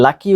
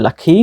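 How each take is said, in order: First: "লাকি" with plain unaspirated k; no puff on the k in "লাকি"; common local pronunciation. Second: "লাকি" with aspirated kh before the final vowel; corrected pronunciation. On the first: Teacher shows learners the usual habit, unaspirated k in "লাকি". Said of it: "আমরা যেটাকে লাকি উচ্চারণ করি". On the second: Teacher corrects learners, aspirated k in "লাকি". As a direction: puff of air on the k in "লাকি". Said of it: "সেটা হবে লাকি". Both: Shown as a demonstration.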